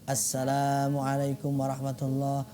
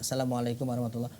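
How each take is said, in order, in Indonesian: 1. Vokal setelah L itu panjang. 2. Vokal setelah L itu pendek. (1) "harusnya kan" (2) "Lamnya nggak dipanjangkan"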